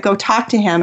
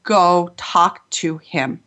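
First: Said in the usual way. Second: Slow, deliberate, each word set apart; insistent inner voice. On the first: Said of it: "my intuition said". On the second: Retold or imitated. Intuition insisting she approach the weeping man, slow and deliberate. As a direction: let "Go talk to him." land slowly, one word at a time. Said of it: "this voice just loud said".

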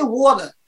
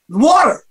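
First: "water" with the T softened away; muddled water. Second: "water" with a clear T and R; clearly articulated water. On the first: Stroke survivor showing the old faulty sound, muddled T. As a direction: slur the middle of "water" like wah-la. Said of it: "I didn't say water". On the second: Stroke survivor hearing the word come back, clearly articulated. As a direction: say "water" firmly, every sound in place. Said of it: "like I'm saying it now". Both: Shown as a demonstration.

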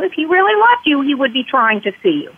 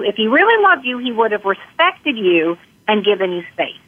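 First: Loved jumps high, the rest falls away; quoting the alienating mom, loved pushed up; stress on loved. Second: Really lifted, loved left light; same jab again, really pushed up this time; stress on really. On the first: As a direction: lean hard on loved. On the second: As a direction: lean on really, not on loved. Alienating parent quoted again. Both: Retold or imitated.

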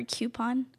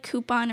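First: "coupon" starting like the word cue; CUE-pon pronunciation. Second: "coupon" starting with a plain koo; COO-pon pronunciation. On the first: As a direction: say "coupon" as KYOO-pon, with a y glide. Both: Shown as a demonstration. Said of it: "It's like coupon or coupon".

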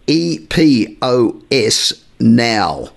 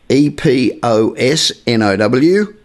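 First: "E P O S" as separate letters, "Now" as a word; spelling it out. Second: All letters "E P O S N O W" spelled one by one; spelling it out. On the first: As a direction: slowly spell "E P O S", then say "Now". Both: Shown as a demonstration. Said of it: "you can go to E-, Epos".

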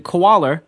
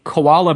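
First: "koala" ending in an R sound; added final R. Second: Said in the usual way. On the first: Shown as a demonstration. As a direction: tack an R onto the end of "koala". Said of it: "random sort of R on the end". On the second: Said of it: "we say koala bear".

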